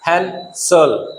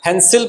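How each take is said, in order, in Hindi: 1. दूसरे अक्षर में हल्का 'uh' स्वर है। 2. दूसरे अक्षर में स्पष्ट 'ee' स्वर है। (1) "इसको हम पढ़ेंगे अ" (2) "इसको ई नहीं पढ़ेंगे"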